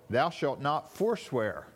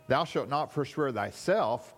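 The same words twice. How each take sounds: First: Slow, weighted "forswear"; stress on forswear. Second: Weight falls on "thyself"; stress on thyself. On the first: Preacher showing the intended reading of the verse, stress on "forswear". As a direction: land the accent firmly on "forswear". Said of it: "the accent is actually on". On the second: Preacher showing his old reading of the verse, stress on "thyself". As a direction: read it leaning on "thyself", gliding over "forswear". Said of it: "read this verse with accent". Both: Shown as a demonstration.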